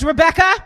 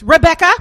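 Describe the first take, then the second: First: Higher, lilting mom voice calling Rebecca. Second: Higher, louder sing-song call of Rebecca. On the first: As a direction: sing out her name like a suburban mom. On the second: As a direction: call the name out bright and high like a suburban mom. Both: Retold or imitated.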